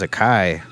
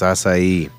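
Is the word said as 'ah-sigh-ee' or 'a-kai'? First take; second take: a-kai; ah-sigh-ee. First: The word is said as 'a-kai'. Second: The word is said as 'ah-sigh-ee'. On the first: The speaker calls it wrong. "I thought it was a kai" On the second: The speaker calls it right. "No, it's acai"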